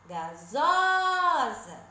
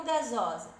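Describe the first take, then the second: First: Gasosa with a long, high, loud ZO; calling out, stretched. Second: Said in the usual way. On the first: Shown as a demonstration. Teacher showing the stressed syllable, gasosa with ZO stretched and raised. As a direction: call out gasosa, holding the middle ZO. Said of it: "É o zó". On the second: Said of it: "eu vou chamar assim".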